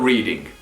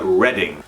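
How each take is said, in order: First: It sounds like the verb 'reading'. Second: It does not sound like the verb 'reading'. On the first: The speaker calls it wrong. "Not Reading" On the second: The speaker calls it right. "but Reading"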